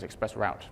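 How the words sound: It is said in an American pronunciation. "For the Americans"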